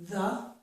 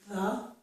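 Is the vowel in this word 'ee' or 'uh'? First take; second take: uh; uh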